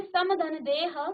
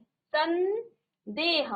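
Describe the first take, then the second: First: समधन देह read slowly as separate parts; spelled-out parts. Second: संदेह very slow, with a clear half-n before देह; nasal sound shown. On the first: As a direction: sound out समधन देह piece by piece. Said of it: "तो यहाँ मौ का न हो जाता है". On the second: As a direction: stretch संदेह so the half-n is heard. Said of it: "आधा नौ का उच्चारण आ रहा है". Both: Shown as a demonstration.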